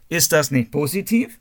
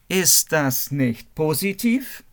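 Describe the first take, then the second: First: The sentence is spoken at a fast pace. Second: The sentence is spoken at a normal pace.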